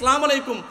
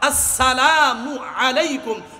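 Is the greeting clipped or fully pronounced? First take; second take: clipped; full. First: The opening syllable is dropped and sounds are blurred. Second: The opening glottal stop is firm and 'mu' clear. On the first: The speaker calls it wrong. "এই যে সালাম আলাইকুম" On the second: The speaker calls it right. "আসসালামের হামজার হামজাটা শক্ত করে, আর মু মিম পেশ মুকে স্পষ্ট করে"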